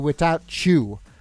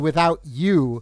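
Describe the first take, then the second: First: The t and you blend into 'chew'. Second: The t and you stay separate sounds. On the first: The speaker calls it wrong. "I refuse to say without chew" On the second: The speaker calls it right. "I always say without you"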